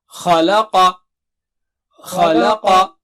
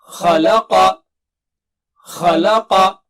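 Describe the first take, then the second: Both takes have the same delivery.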